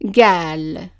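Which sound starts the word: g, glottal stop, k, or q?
g. The word starts with a g sound. This is the form used where qaf becomes g. "the qaf is pronounced as a g sound"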